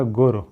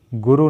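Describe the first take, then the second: First: "गुर" as guru with a very short final u; correct pronunciation demo. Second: "गुरु" with a long oo at the end; wrong pronunciation demo. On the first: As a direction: cut the last vowel of "गुर" short. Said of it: "गुर होता है". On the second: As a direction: draw out the final vowel of "गुरु". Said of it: "नहीं होता". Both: Shown as a demonstration.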